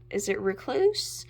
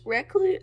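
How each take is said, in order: First: Said in the usual way. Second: "Recluse?" jumps way up and loud in a squeaky rise; odd high questioning. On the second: Real, not acted. Vlogger unsure of shade name, squeaky high "Recluse?". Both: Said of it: "I don't know why I'm saying it like that".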